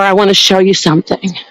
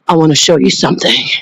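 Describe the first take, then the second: First: It is said in a normal voice. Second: It is said in a deep demonic voice.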